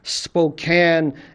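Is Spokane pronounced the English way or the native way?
English. The name is said with an English pronunciation. The speaker calls it right. "I guess pronounce that in English"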